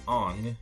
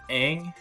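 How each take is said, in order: First: The name is said the way the movie says it. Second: The name is said the way the show says it. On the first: The speaker calls it wrong. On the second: The speaker calls it right.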